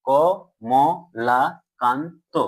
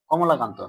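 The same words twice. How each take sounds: First: "ক, ম, লা, কান, তো" each its own beat; syllable by syllable. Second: Said in the usual way. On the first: Shown as a demonstration. Teacher confirming the pupils' pronunciation, "ক, ম, লা, কান, তো" syllable by syllable. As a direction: chop it into "ক, ম, লা, কান, তো" with even pauses. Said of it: "এটাই তো উচ্চারণ করছো". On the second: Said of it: "কতটুকু তুমি উচ্চারণ করতে পারছো".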